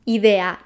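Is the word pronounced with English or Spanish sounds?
Spanish. The word is said with Spanish vowel sounds. The speaker calls it right.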